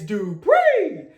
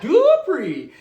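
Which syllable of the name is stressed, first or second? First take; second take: second; first. First: The stress is on the second syllable. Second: The stress is on the first syllable. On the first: The speaker calls it right. "It's not the do, it's the pre that gets accented" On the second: The speaker calls it wrong. "It's not Dupri"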